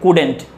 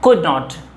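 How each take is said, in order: First: The words are joined into one contracted word. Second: Both words are said fully and separately. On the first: "बोलेंगे couldn't" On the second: "could not को कैसे pronounce करेंगे"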